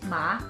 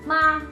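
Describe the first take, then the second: First: The pitch rises from low to high. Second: The pitch stays level and high. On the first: "start from a lower pitch before ending at a higher pitch" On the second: "The first tone is a level and high pitch"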